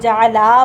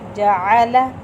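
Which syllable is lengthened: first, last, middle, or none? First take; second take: last; none. First: The last syllable's vowel is drawn out long. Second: All three syllables are kept short and even. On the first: The speaker calls it wrong. "लाम लंबा हो जाएगा" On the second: The speaker calls it right. "तीनों को लंबा नहीं करना"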